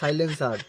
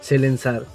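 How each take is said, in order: First: The first syllable is said as 'sai'. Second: The first syllable is said as 'se'. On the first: The speaker calls it right. "আবে ওটা সাইলেন্সার হবে বে ছাপড়ি" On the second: The speaker calls it wrong. "সাইলেন্সারকে সেলেন্সার বলছে"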